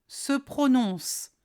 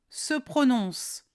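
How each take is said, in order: No difference in how they are said.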